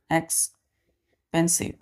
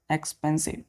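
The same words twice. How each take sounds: First: "एक्सपेंसिव" slowly, pausing after एक्स; syllable by syllable. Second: Said in the usual way. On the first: Shown as a demonstration. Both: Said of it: "ये word तीन syllable का है".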